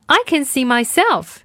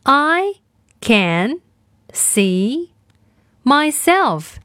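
First: Said in the usual way. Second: I, can, see, myself each said alone with long gaps; word by word. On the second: Shown as a demonstration. Teacher splitting the sentence for kids to repeat. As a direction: break the sentence into single words. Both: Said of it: "我们来练习今天的跟读作业".

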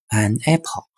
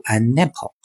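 First: "an apple" as two separate words, no linking; unlinked pronunciation. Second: "an apple" run together as "a-napple"; linked pronunciation. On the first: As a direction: keep "an" apart from "apple", starting "apple" on its vowel. 我们这么读是不对的，因为它没有连读. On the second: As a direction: carry the n of "an" straight into "apple". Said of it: "因为它没有连读，要读". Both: Shown as a demonstration.

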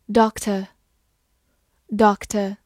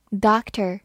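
First: Said in the usual way. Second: "doctor" with American open "ah" and final r; American pronunciation. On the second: Shown as a demonstration. Teacher showing learners the US variant, American pronunciation of "doctor". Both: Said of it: "美式发音".

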